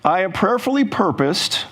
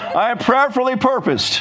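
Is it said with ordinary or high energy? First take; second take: ordinary; high. First: It is said with ordinary, calm energy. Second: It is said with strong, lively energy.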